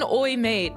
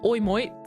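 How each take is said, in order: First: The word mate has a plain vowel. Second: The word mate sounds like moit, Australian-like. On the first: "Not even oi mate" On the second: "that sounds Australian"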